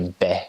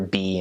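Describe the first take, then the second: First: The letter is named with Twi pronunciation. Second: The letter is named with English pronunciation. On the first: "they be" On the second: "we're B"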